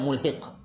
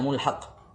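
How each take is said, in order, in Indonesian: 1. Vokal tengahnya bunyi 'i'. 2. Vokal tengahnya bunyi 'a'.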